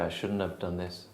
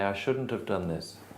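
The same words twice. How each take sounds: First: The words run together with contractions. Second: Every word is said fully and carefully. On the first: It suits a casual situation. "if you're in the pub, maybe you say" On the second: It suits a formal situation. "If you're in a meeting, you can say"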